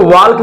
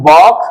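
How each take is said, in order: First: "वॉक" said as "walk" with a clear L, the wrong way; "वॉक" pronounced "वॉल्क" with the L; walk with the L sounded. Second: "वॉक" said as "wok", L silent; "वॉक" said "वॉक", no L sound; silent L walk. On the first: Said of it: "इसमें एल देखो". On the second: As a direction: drop the L in "वॉक". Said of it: "अब इसको वॉक नहीं पढ़ेंगे". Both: Shown as a demonstration.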